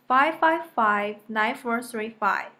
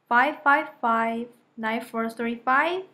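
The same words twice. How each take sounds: First: The voice falls at the end. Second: The voice rises at the end. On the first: The speaker states the number. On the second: The speaker checks the number to clarify it.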